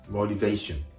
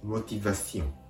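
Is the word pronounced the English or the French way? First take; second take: English; French. First: The word is said with English pronunciation. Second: The word is said with French pronunciation. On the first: "英単語でモチベーション" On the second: "フランス語でモティバション"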